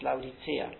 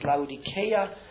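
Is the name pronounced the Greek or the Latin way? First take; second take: Latin; Greek. First: It is pronounced the Latin way. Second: It is pronounced the Greek way. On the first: "Wenn man es Lateinisch ausspricht, dann heißt es" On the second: "Wenn man es Griechisch ausspricht, dann heißt es"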